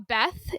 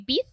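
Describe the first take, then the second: First: The vowel is a short 'eh' sound. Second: The vowel is raised toward an 'ee' sound.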